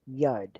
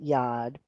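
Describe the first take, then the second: First: The vowel sounds like 'oo'. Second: The vowel sounds like 'oh'. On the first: The speaker calls it right. "it's Hebrew, and it's pronounced Yud" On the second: The speaker calls it wrong. "a lot of people pronounce it Yod, but it's not pronounced Yod"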